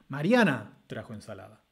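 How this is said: The main stress falls on the word Mariana. "ubicar el acento nuclear en el sujeto de la oración, en Mariana"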